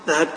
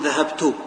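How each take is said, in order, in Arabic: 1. التاء الأخيرة تليها كسرة. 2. التاء الأخيرة تليها ضمة. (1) "وبالكسرة" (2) "أحركها بالضم"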